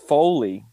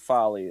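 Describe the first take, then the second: First: The first vowel is a long 'oh' sound. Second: The first vowel is a short 'ah' sound. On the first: The speaker calls it right. "It's Foley" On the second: The speaker calls it wrong. "don't say Folly anymore"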